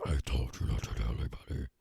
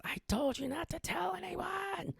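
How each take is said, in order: First: Much lower, otherworldly demon voice. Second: Very high, slow, drawn-out wailing cry; high-pitched screaming woman. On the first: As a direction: drop down deep into the demon. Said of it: "she's transforming into that demon". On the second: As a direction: wail it way up high and stretch it out. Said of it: "she starts screaming". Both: Retold or imitated.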